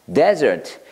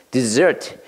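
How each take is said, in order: First: Desert with falling tune, "DEZ-ert"; 사막 Desert, 첫음절 강세; desert, the noun. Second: Dessert with a rising tune, "di-ZERT"; 디저트 dessert, 둘째 음절 강세; dessert, the sweet. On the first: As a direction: say Desert with stress on the first syllable, falling. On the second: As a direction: say dessert with stress on the second syllable, rising. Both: Shown as a demonstration. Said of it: "발음이 똑같아요".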